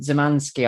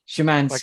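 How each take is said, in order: First: The name begins with a 'z' sound. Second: The name begins with an 'sh' sound. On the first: The speaker calls it wrong. "did I say that right" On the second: The speaker calls it right. "It's Shemansky"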